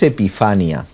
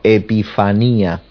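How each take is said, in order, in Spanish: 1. El acento cae antes de la sílaba 'ní'. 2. El acento cae en la sílaba 'ní'. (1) "no es Epifania" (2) "sino Epifanía ... En la I"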